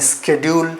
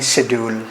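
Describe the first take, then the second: First: It is said in an American accent. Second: It is said in a British accent.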